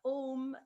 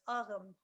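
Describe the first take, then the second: First: The word is said in its Modern Irish form. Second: The word is said in its Old Irish form. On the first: "the pronunciation is uh, Modern Irish" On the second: "which is actually the Old Irish pronunciation"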